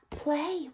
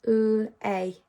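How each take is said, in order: First: Said in the usual way. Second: "P-L-A" as separate phonic sounds; "P-L-A" segmented for blending, not letter names; sounding out. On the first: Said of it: "blend those sounds together". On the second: Shown as a demonstration. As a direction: say "P-L-A" sound by sound, with gaps between. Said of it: "he can only speak in sounds".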